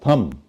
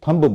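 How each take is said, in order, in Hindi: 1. अंतिम b ध्वनि मौन है। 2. अंतिम b ध्वनि उच्चारित होती है। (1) "और ये है थम" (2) "इसको लोग थंब बोल देते हैं"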